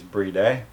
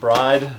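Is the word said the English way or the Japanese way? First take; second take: Japanese; English. First: It is said with a Japanese pronunciation. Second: It is said with an English pronunciation. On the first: The speaker calls it right. "correct um, way of pronouncing it is bride, which is how the Japanese pronounce it" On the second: The speaker calls it wrong. "I guess I'll say it bride"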